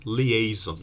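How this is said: The word is said with English pronunciation. "but they pronounce it"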